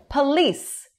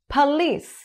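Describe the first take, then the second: Both takes have the same delivery.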